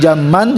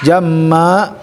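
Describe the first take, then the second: First: The word ends with an n sound. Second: The word ends on a long a vowel. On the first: The speaker calls it wrong. "bukan jamman" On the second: The speaker calls it right. "jadi jamma ya, tetap alif ya"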